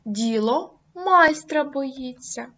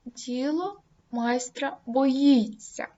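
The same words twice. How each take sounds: First: «майстра» голосно, повільно; вдар по слову «майстра»; stress on майстра. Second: «боїться» з притиском і спадом, повільно; наголоси кінцеве «боїться»; stress on боїться. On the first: (логічний наголос на «майстра») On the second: (логічний наголос на «боїться») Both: Shown as a demonstration. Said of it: "вирізняючи логічним наголосом".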